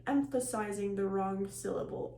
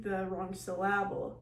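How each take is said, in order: First: Said in the usual way. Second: Syllable stressed on its second syllable, sy-LA-ble; misplaced stress in syllable, a playful demo; wrong syllable stress. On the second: Shown as a demonstration.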